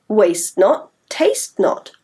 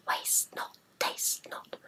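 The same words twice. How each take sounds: First: Said in the usual way. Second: Whispered, almost silent; voiceless whispered chant. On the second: Shown as a demonstration. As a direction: breathe the rhyme as a secret. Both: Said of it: "Shall we try saying that version?".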